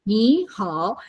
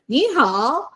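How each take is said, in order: First: It is said at normal volume. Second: It is said at a louder volume. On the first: "So you have to say 你好" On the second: "If you're happy, you just say louder"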